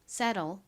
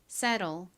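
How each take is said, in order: The two takes are said the same way.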